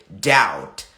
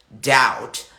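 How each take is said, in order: Both takes have the same delivery.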